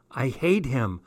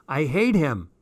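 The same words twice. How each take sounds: First: Contained, bitter statement; mutedly resentful declaration; mild hate before the outburst; brooding loathing. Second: Emphatic loathing. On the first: Midnight outburst, first take. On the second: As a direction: wail it with more force. Midnight outburst, emphatic repeat. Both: A narrator's reading.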